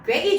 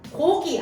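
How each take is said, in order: First: The first vowel is fronted to 'oe'. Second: The first vowel is a plain 'o'. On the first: "표준 발음으로 인정하지 않습니다" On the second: "고기 아니라"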